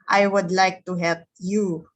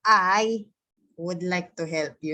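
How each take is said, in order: First: The word 'you' carries the strong stress. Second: The word 'I' carries the strong stress. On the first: "basahin mo nga siya na ang stress ay nandito sa you" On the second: "pag sinabi mong stress, yung parang lalagyan mo ng diin"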